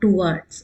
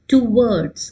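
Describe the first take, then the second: First: It is said as a single blended syllable. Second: It is said in two syllables, 'to-wards'. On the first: The speaker calls it wrong. "not towards" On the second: The speaker calls it right. "towards, two words, okay"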